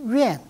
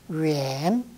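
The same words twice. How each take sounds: First: The syllable is said with a falling tone. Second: The syllable is said with a rising tone. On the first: It is a verb meaning to keep at a distance. "거성으로 발음한다 그러면은 중국식으로 말하면은 웬" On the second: It is an adjective meaning far. "형용사로서 멀다 할 때는 웬, 웬 역시 상승이 되는 것입니다"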